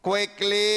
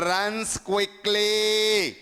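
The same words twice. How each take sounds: First: Said in the usual way. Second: Slow dictation. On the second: Shown as a demonstration. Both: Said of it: "For example చూడండి".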